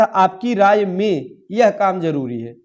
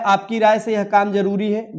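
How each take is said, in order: First: Slow, careful model reading of the correct form; slow corrected sentence. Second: Said in the usual way. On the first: Shown as a demonstration. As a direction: read the fixed sentence slowly, word by word. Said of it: "यह होना चाहिए था". (धीमे और स्पष्ट सही वाक्य) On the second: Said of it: "गलत है".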